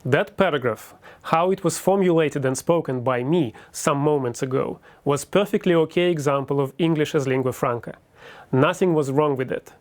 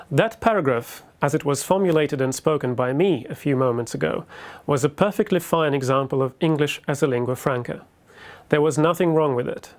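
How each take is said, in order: First: Russian-accented lingua franca English; careful English with a Russian accent; native Russian accent. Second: British-accented lecture English; fluent, taught British accent; fake British accent. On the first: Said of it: "I will repeat". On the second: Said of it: "I was taught to fake British accent". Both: Shown as a demonstration.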